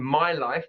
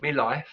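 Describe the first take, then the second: First: "my life" with a full "my" diphthong; clear my. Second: "me life" with "my" reduced to "me"; Cockney "me life". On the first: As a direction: say "my" fully, not "me". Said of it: "here she's saying". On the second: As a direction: drop "my" to "me". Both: Shown as a demonstration.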